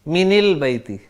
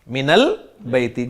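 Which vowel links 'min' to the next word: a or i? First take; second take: i; a. First: The n of min is linked with an i vowel. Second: The n of min is linked with an a vowel. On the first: The speaker calls it wrong. "जब मैंने जेर लगाई तो बन गया मिनिल बैती, अब मिनिल बैती अरब को अच्छा नहीं लगता" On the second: The speaker calls it right. "नून को जबर दे दी और पढ़ दिया मिनल बैती"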